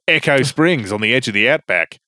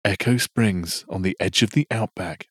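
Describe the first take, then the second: First: It is read in an Australian accent. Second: It is read in the speaker's usual accent.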